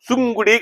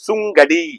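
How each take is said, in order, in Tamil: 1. நடுவுல இருக்கிற உயிர் 'u' மாதிரி கேக்கும். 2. நடுவுல இருக்கிற உயிர் 'a' மாதிரி கேக்கும்.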